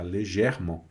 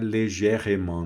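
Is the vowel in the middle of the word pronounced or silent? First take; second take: silent; pronounced. First: The middle vowel is dropped, leaving it silent. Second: The middle vowel is pronounced as a syllable. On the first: The speaker calls it right. "Esse E aqui no meio muitas vezes não é pronunciado" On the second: The speaker calls it wrong. "Não é légèrement, não"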